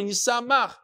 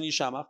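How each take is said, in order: First: Yisamach with a plain "s"; Yisamach, the traditional reading without sh. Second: Yishamach with "sh" in the middle; Yishamach, the unpointed reading with sh; read with shin. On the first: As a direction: say Yisamach higher, as "yi-sa-mach". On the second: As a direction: say Yishamach softly as "yi-sha-mach". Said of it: "you'd read it with a shin". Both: Shown as a demonstration.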